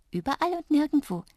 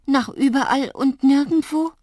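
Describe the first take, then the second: First: High, playful little voice; giggly. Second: Loud, high, dismayed question; alarmed. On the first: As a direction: say it with a hint of a giggle, pitched up. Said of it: "kicherte Drups". (kichernd, mit hoher Stimme) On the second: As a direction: raise the voice in frightened disbelief. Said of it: "Mir wurde kalt und zittrig". (laut und erschrocken fragend) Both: A narrator's reading.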